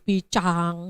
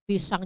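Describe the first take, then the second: First: The s sound is replaced by a lisping sound. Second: The s sound is pronounced clearly and normally.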